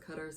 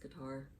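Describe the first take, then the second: First: Qatar is said the way a local resident says it. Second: Qatar is said the common American way. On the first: This is how someone living there says it. "He says Qatar, so I'm guessing that's the correct pronunciation" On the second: This is how people in the States say it. "here in the States, everyone says Qatar"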